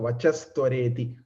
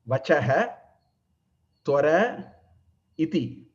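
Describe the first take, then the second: First: The words are fused into one with an 's'. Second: Three words are said separately, each ending fully. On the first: "So Vachastwareti" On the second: "There are three words"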